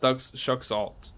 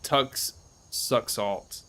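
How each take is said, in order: First: The h sounds in the name are pronounced. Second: The h sounds in the name are silent.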